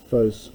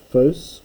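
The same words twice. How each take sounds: First: Phos said with a falling pitch accent; phos meaning man. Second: Phos said with a rising pitch accent; phos meaning light. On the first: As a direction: let the pitch drop on phos. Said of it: "there's phos with that accent, meaning a man". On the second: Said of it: "There's phos with that accent, meaning light". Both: Shown as a demonstration.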